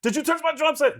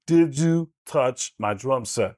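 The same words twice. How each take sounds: First: Same line pitched much higher, tighter; Mark Ruffalo impression. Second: John C. Reilly impression. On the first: Showing the hosts Mark Ruffalo, higher. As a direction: squeeze the throat and lift it up. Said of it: "It becomes Mark Ruffalo". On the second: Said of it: "becomes John C. Reilly". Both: Shown as a demonstration.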